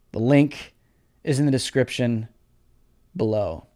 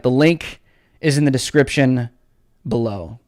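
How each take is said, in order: First: Much lower, much softer, almost gone; fading echo of the link plug; fading to nothing. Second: Fading plug for the link. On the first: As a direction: let it die away. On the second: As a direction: lower and much softer, trailing off. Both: Shown as a demonstration. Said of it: "repeated softer".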